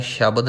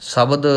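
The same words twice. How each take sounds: First: ਸ਼ਬਦ said as shabad, with sh; sh onset. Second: ਸ਼ਬਦ said as sabad, with s; plain s onset. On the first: Teacher showing the mistake to avoid, ਸ਼ਬਦ as shabad. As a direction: open ਸ਼ਬਦ on a hushing sh. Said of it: "ਨਹੀਂ ਕਰਨਾ". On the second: Teacher correcting learners, ਸ਼ਬਦ as sabad. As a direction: start ਸ਼ਬਦ on s, never sh. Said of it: "ਉਚਾਰਨ ਕਰਨਾ ਹੈ". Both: Shown as a demonstration.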